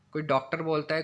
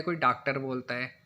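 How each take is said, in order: First: डॉक्टर with a rounded English-style aw in the first syllable; rounded aw vowel. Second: डॉक्टर said as daaktar with an open aa in the first syllable; open aa vowel. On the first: Teacher showing students the rounded aw in डॉक्टर. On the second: Teacher showing students the Hindi aa variant of डॉक्टर. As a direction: flatten डॉक्टर to daaktar, no lip rounding. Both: Shown as a demonstration. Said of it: "जैसे डॉक्टर".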